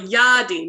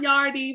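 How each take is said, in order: First: The word is said without an R sound. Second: The word is said with an R sound. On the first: The speaker calls it right. "We don't say the R, just Yadi" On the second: The speaker calls it wrong. "not Yardi"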